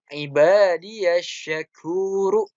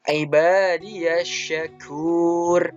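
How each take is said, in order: First: The final r is followed by a short vowel. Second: The final r is held with no vowel after. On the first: This is the original form without stopping. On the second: The reader stops at the end of the verse. "Ra-nya ini menjadi sukun karena dia wa waqaf"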